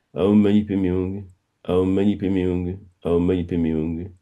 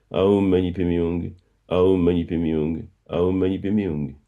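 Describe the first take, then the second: The two takes are said the same way.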